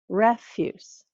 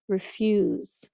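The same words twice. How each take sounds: First: The stress is on the first syllable. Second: The stress is on the second syllable. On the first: "the stress is on the first syllable for that word" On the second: "It's on the second syllable"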